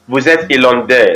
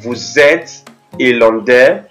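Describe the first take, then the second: First: The voice does not rise at the end. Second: The voice rises at the end. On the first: It states that the listener is from Ireland. "the original sentence is" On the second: It asks whether the listener is from Ireland. "by just raising my voice at the end of the sentence"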